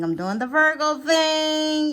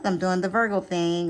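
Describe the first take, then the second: First: Higher, slower mock Virgo sing-song; teasing. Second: Said in the usual way. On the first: Shown as a demonstration. Reader teasing Virgo viewers, in a higher slower sing-song. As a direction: tease Virgo about being fussy. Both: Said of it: "Y'all know what the Virgo thing is".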